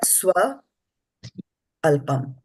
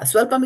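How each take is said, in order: First: The word is split, with an extra a sound. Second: The word is said joined as one smooth unit. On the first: The speaker calls it wrong. "you said swa alpam" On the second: The speaker calls it right. "pronounce it together"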